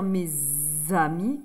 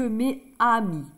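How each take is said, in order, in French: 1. Un son z relie les deux mots. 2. Aucun son z ne relie les deux mots. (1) "C'est plus joli de dire mes amis" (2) "que mes amis"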